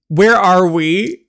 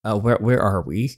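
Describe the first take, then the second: First: High, loud, slow question; alarmed demand. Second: Said in the usual way. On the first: Acted. Captive girl asks where the car has stopped, alarmed demand.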